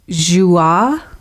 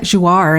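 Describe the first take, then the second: First: The word ends with no R sound. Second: The word ends with an audible R sound. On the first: "without even pronouncing the R at all" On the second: "I'll just pass it off as an American accent"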